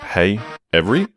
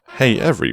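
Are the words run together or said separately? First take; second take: separately; run together. First: The two words are said separately and normally. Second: The words are squeezed together like a robot voice.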